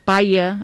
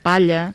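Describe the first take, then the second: First: The middle consonant is a Y sound. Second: The middle consonant is a palatal L sound. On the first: This is a colloquial dialect form. The speaker calls it wrong. "pronuncien aquesta doble L com si fos una I" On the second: This is the standard form. The speaker calls it right. "en comptes de"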